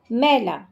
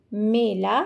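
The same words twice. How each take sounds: First: मैला with a wide open ɛ as in 'maila', dirty, falling at the end; open ai vowel. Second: मेला with a tight closed e as in 'mela', the village fair; closed e vowel. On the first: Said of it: "अगर आपने मैला बोला मतलब dirty". (मैला में खुली 'ऐ' की ध्वनि, अंत में स्वर नीचे) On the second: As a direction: say मेला with a narrow e sound, not the open one. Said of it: "अगर आपने मेला बोला तो जो मेला घूमने जाते हैं". (मेला में बंद 'ए' की ध्वनि साफ़ बोलें) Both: Shown as a demonstration.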